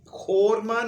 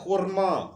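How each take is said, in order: First: The first vowel is an 'o' sound. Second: The first vowel is a 'u' sound. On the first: The speaker calls it wrong. "ये खोरमा नहीं है" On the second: The speaker calls it right. "असल लफ्ज है खुरमा"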